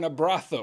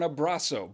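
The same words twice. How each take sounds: First: The z is pronounced as a th sound. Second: The z is pronounced as an s sound. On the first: The speaker is in Spain. "But if you're in Spain, you'll ask for an abrazo" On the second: The speaker is in Mexico. "if you're in Mexico, you'll ask for an abrazo"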